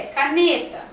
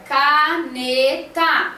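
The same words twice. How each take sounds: First: Said in the usual way. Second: "caneta" said slowly, split into ca-ne-ta; syllable by syllable. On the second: Shown as a demonstration. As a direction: spell out "caneta" slowly, one beat per syllable. ("caneta" dita devagar, sílaba por sílaba) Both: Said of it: "Se divide em três sílabas".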